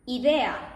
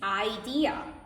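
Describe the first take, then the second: First: The word is said with Spanish vowel sounds. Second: The word is said with English vowel sounds. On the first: "understanding the word idea" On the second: "that in English is idea"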